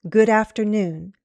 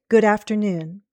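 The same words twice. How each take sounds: No difference in how they are said.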